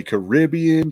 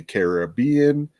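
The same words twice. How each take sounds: First: Caribbean as kuh-RIB-ee-un, slowly; Caribbean stressed on RIB. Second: Caribbean as care-uh-BEE-un, slowly; Caribbean stressed on BE. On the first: Host lists ways viewers might say it, Caribbean stressed on RIB. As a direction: stress the second syllable of Caribbean, with short i. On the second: Host lists ways viewers might say it, Caribbean stressed on BEE. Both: Shown as a demonstration. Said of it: "emphasis or something".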